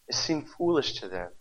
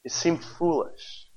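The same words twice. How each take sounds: First: Said in the usual way. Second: "It seemed foolish" drawn out slowly, weight on seemed; slow, deliberate "seemed foolish"; slow emphasis. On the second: Shown as a demonstration. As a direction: lay each word down slowly, leaning on seemed. Repeated for emphasis.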